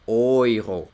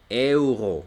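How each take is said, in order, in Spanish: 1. Empieza con el sonido vocálico 'oy'. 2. Empieza con el sonido vocálico 'eh-oo'. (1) "sino que dicen oiro" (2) "no dicen euro"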